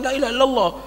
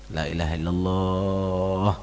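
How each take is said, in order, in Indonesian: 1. Diucapkan dengan tegas seperti perintah. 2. Diucapkan dengan lembut dan halus. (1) "Jangan menyatakan ucapkan la ilaha illallah" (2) "tapi dengan cara halus"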